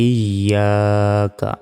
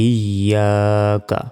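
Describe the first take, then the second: No difference in how they are said.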